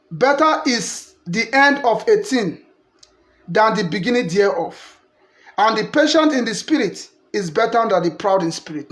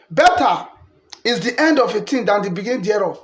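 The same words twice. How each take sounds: First: Scripture reading. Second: Better set apart by a pause, then the rest; stress on better. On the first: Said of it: "verse eight say". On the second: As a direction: pause after better, then finish the verse. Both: Shown as a demonstration.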